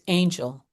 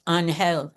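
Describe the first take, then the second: First: The name is pronounced the English way. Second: The name is pronounced the Spanish way.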